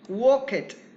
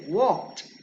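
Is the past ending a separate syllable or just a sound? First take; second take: separate syllable; just sound. First: The ending is said as an extra syllable. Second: The ending is a single sound, no extra syllable. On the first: The speaker calls it wrong. "this is totally incorrect" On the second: The speaker calls it right. "you say walked"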